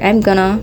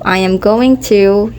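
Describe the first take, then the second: First: The words are contracted and run together. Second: Every word is said fully and separately. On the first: "you hear" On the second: "instead of"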